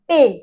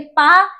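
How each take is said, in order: First: The syllable has an 'ay' vowel. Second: The syllable has an 'ah' vowel. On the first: The speaker calls it right. "पे बोलना है" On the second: The speaker calls it wrong. "पा नहीं बोलना"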